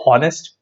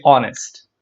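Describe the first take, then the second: First: "honest" as a question with the H voiced out; sounded H. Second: "honest" said as "onest"; silent H. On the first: Teacher quizzing students, "honest" with the H pronounced. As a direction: ask "honest" with a wrong, audible H. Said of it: "Do we say". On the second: Teacher giving the right form, "honest" with a silent H. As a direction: drop the H from "honest", opening on the vowel. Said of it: "The letter H is silent". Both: Shown as a demonstration.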